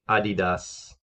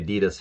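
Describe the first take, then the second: First: It is said with a German pronunciation. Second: It is said with an American pronunciation. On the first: "I think they pronounce it in Germany Adidas" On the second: "we say Adidas here in America"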